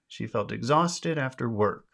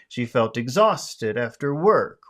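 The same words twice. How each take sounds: First: The stressed words are emphasized only lightly, naturally. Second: The stressed words are strongly exaggerated and drawn out. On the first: "let me try to say it in a more natural way" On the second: "I'm exaggerating when I do it"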